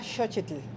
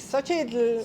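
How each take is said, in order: First: The name is said the Nahuatl way. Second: The name is said the Chihuahua way.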